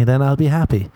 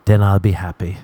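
First: Hopeful line. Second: Said in the usual way. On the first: Shown as a demonstration.

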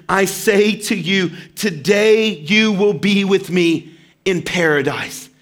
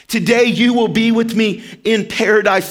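First: Slow, gentle, deliberate promise; Jesus gently promising the dying criminal paradise, slow and tender. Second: Said in the usual way. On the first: Acted. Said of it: "when he says in Luke". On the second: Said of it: "repeat of the quote".

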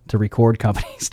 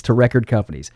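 First: "record" stressed on the second syllable, re-CORD; misstressed "record". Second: Said in the usual way. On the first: Real, not acted. Radio host repeating his misread of the sleeve notes, "record" as re-CORD.

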